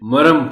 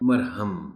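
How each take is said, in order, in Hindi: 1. बीच की 'h' ध्वनि छोड़ दी जाती है। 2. बीच की 'h' ध्वनि उच्चारित की जाती है।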